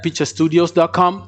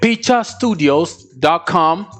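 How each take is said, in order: First: It is said at normal speed. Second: It is said slowly.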